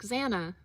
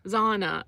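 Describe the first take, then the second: First: "Zana" with a short a as in "cat"; "Zana" rhyming with "Hannah"; switched-up pronunciation. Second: "Zana" with a broad ah in the first syllable; switched-up pronunciation. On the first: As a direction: say "Zana" softer, starting with z, first vowel as in "cat". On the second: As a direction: say "Zana" as "ZAH-na". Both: Shown as a demonstration. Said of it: "I'll just switch it up".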